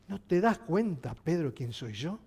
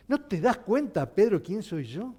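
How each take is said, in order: First: Soft, low ask. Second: Said in the usual way. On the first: Acted. Jesus quietly asks Pedro if he sees who he is, soft and low. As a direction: lower and softer, an intimate question. Preacher repeats Jesus' question.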